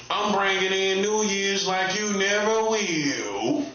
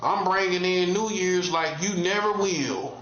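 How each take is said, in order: First: Slow, taunting drawl with NEVER lifted; slow drawn-out boast. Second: Said in the usual way. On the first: Acted. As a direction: stretch every word slowly, savoring it. Repeats boast, second take drawn.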